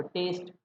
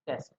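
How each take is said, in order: First: टेस्ट with a drawn ei glide, as English "taste"; long EI in टेस्ट. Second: टेस्ट with a short e, as English "test". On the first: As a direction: stretch the vowel of टेस्ट into "teist". (टेस्ट को "टेइस्ट" बोलें, स्वाद वाला) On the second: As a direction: keep the vowel of टेस्ट short, exam-word "test". (टेस्ट में छोटा "ए", परीक्षा वाला) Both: Shown as a demonstration. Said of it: "difference देखो".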